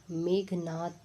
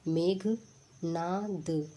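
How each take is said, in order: First: Said in the usual way. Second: मेघनाद drawn out, each syllable held long; slow dictation. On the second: Shown as a demonstration. Teacher checking spellings, slowly saying मेघनाद. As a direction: stretch मेघनाद out for the class. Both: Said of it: "तो देखिए".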